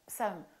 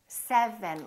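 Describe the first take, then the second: First: Some consonants are slurred together. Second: Every consonant is clearly pronounced. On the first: The speaker calls it wrong. "don't get lazy and say" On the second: The speaker calls it right. "look what's happening in my mouth"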